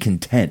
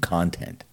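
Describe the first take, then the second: First: The stress is on the second syllable. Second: The stress is on the first syllable. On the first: Feeling satisfied. "I can be content" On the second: Material that is made or shared. "I can give you content"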